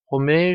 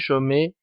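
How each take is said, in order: First: The name begins with an R sound. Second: The name begins with a J sound. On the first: The speaker calls it right. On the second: The speaker calls it wrong.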